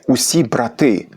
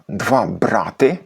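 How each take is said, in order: First: БраТИ, stressed on the final syllable; "брати" with plural stress, on ТИ, drawn out; stress on last syllable. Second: БРАти, stressed on the first syllable; "брати" with old dual stress, on БРА. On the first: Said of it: "це колишній наголос множини". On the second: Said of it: "це колишній наголос двоїни". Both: Shown as a demonstration.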